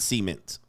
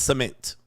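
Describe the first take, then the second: First: The word sounds close to 'semen'. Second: The word does not sound like 'semen'. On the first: The speaker calls it wrong. "not cement. Cement is too close to semen" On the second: The speaker calls it right. "it's cement"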